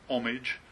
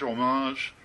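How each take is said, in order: First: It is said the American way. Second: It is said the French way. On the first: "as you might say in the States" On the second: "I've also heard it in French"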